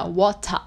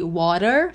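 First: "water" with a clear T, open ending; British water. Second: "water" with flapped middle and pulled R; drawn-out American "water", R at the end. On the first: Teacher contrasting accents, British "water" with a real T. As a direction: say "water" as WAW-tah, no final R. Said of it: "usam muito realmente o som do T". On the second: Teacher contrasting accents, American "water" with pulled R. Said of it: "som do R puxado é mais americano". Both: Shown as a demonstration.

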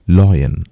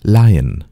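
First: "loyan" said LOY-an; "loyan" with an oy sound; mispronounced "loyan", loy-an; wrong pronunciation. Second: "Lion" said LIE-un; "Lion" as lie-un, two syllables; correct pronunciation. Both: Shown as a demonstration.

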